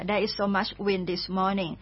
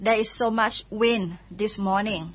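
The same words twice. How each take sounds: First: There is so much wind this morning dragged out, wind stressed and falling; slow it right down so they can follow; even slower repeat. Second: There is so much wind this morning said slowly and clearly; slow model sentence. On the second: Teacher gives listeners the wind example, slow and clear. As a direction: lay it out slowly for learners. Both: Shown as a demonstration. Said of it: "ถ้าเกิดมีลมก็".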